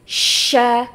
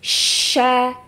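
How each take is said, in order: No difference in how they are said.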